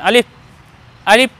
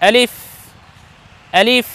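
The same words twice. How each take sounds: First: The sound is made with both lips together. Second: The sound is made with teeth on the lip. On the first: The speaker calls it wrong. "দুই ঠোঁট দিয়ে নয় এরকম নয়" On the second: The speaker calls it right. "উপরের দুই দাঁত নিচের ঠোঁটের সঙ্গে লাগাবো"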